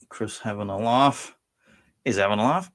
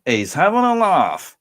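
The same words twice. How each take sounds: First: Said in the usual way. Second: High, loud, drawn-out exclamation; catchphrase shout. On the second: Acted. Host jokes on viewer Chris's name, loud catchphrase. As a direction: belt it out slowly, pitched way up.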